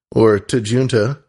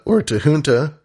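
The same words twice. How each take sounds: First: "Tajunta" with J as in June; hard English J. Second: "Tajunta" with the J said as an H; Spanish-style J. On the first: Podcast host offering regional variants of a producer's name, "Tajunta" with hard J. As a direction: say "Tajunta" slowly as tuh-JOON-tuh. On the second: Podcast host offering regional variants of a producer's name, "Tajunta" with H sound. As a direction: say "Tajunta" as tuh-HOON-tuh. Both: Shown as a demonstration. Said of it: "is how you'll pronounce that".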